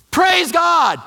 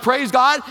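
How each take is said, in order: First: Loud high joyful shout of praise; shouted hallelujah of relief; excited praise. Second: Puzzled, rising 'Praise God?'; incredulous. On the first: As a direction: burst out thankfully after hurting your toe. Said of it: "And he's all excited". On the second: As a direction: echo 'Praise God' back in disbelief. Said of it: "What is going on here?". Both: Retold or imitated.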